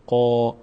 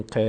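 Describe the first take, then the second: First: قا said with a full, heavy mouth and long a; full-mouth qaf. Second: ق clipped without the long a; the wrong light ق; wrong short qaf. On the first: Teacher shows the heavy قا to students. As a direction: fill the mouth on قا. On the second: Teacher shows the wrong ق to students. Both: Shown as a demonstration. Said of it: "نگیم ق".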